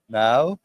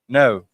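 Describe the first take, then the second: First: The vowel is a standard English 'ow' glide. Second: The vowel is a Scottish 'oo'-like sound.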